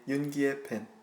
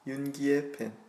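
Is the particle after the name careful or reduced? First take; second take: reduced; reduced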